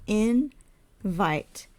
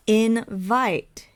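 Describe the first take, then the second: First: "invite" split slowly into in, then vite; syllable by syllable. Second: Said in the usual way. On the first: Shown as a demonstration. Teacher counting out syllables for learners, "invite" in two separate parts. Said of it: "count their syllables". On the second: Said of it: "We have invite".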